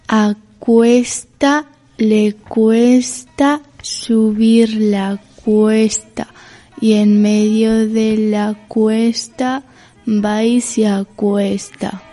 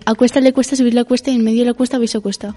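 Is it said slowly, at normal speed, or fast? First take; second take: slowly; fast. First: It is said slowly. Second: It is said fast.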